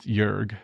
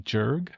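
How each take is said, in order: First: The name is said the German way. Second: The name is said in a non-German way. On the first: "the German pronunciation that I looked up" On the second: "it also might be Jörg, depending on the country of origin of the name"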